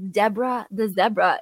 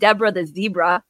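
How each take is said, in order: First: Zebra is said so it rhymes with Deborah. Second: Zebra is said so it does not rhyme. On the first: The speaker calls it right. "it's Deborah the zebra" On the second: The speaker calls it wrong. "It's not Deborah the zebra. That doesn't rhyme"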